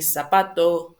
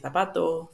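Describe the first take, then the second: First: The first consonant sounds like an s. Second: The first consonant sounds like a th. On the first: This is the Latin American pronunciation. "in Latin America, we will say" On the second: This is the pronunciation used in parts of Spain. "In Spain, they will say"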